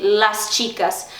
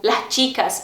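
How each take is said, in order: First: "las chicas" with a clear hissed s; full s in "las chicas". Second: "las chicas" with the s breathed as an h; aspirated s in "las chicas". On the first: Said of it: "em vez de las chicas". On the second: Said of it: "eles têm o S aspirado". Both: Shown as a demonstration.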